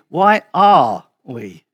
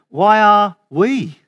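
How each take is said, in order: First: The stress is on "are". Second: The stress is on "we".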